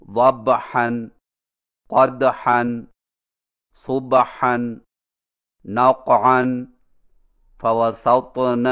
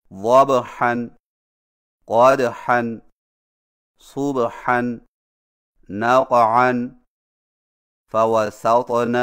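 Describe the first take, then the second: First: ضبحًا، قدحًا with a vowel slipped after the stopped letter; slow, mistaken recitation of ضبحًا and فوسطن; wrong qalqalah. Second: وضحًا، قدحًا، صبحًا recited slowly, with clean qalqalah; slow Quranic recitation of وضحًا and فوسطن; correct recitation. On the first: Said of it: "انتہائی غلط طریقہ ہے". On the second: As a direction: draw out نقعًا and فوسطن slowly and evenly. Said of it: "کو یوں پڑھنا". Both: Shown as a demonstration.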